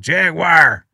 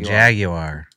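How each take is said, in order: First: It is said the American way. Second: It is said the way the rest of the world says it. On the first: The speaker calls it wrong. "And we're all like" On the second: The speaker calls it right. "They all say Jaguar"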